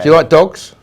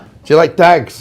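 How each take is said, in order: First: Dogs is said in his normal accent. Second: Dogs is said like 'dags', as in Snatch.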